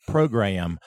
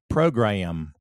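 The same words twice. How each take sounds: No difference in how they are said.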